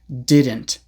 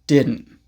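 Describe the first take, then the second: First: Every sound of the word is pronounced clearly. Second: The word is pronounced in a loose, reduced way. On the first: "you don't always need to pronounce didn't ... so clearly" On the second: "In conversation, they often sound more like"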